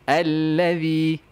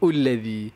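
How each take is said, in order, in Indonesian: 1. Kata itu diawali dengan vokal a. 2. Kata itu diawali dengan vokal u. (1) "selama-lamanya dia allazi" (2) "ataupun ullazi"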